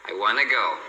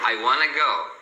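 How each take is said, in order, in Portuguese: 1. 'Want to' é reduzido ainda mais para 'wanna'. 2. 'Want to' é reduzido ainda mais para 'wanna'.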